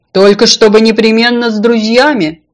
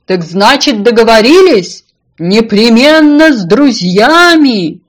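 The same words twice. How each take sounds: First: Firm, slightly raised reminder; loud but conversational insistence; insistent condition. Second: Loud, drawn-out singsong call; high, stretched farewell shout; calling out goodbye. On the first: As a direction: spell out the one condition. Fish sets her condition. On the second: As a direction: holler it as if from across a pond. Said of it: "на прощание крикнула ему". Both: A narrator's reading.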